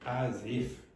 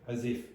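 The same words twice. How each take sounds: First: It is said expressively, with marked intonation. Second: It is said flatly, without marked intonation. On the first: The speaker calls it right. "you have to use the correct intonation" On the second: The speaker calls it wrong. "You can't just say as if"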